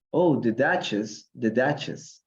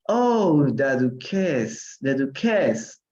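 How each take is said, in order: First: "Duchess" with a CH sound in the middle; "Duchess" pronounced DUTCH-ess, no K sound; corrected Duchess. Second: "duquess" with a K sound in the middle; "duquess" said like Spanish duquesa without its last vowel; mispronounced Duchess. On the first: Shown as a demonstration. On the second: Real, not acted. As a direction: say "duquess" as du-KESS, stressed on the end. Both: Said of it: "para que ustedes escuchen la pronunciación".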